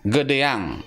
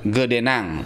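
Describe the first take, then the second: First: The ending follows the vowel with no n. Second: An n sound comes before the ending.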